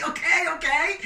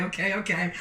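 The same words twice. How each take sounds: First: High, loud excited okay; excited shout. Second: Said in the usual way. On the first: Real, not acted. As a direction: ride the crowd's noise. Crowd shouting the answer.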